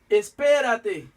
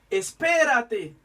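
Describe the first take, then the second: Both takes have the same delivery.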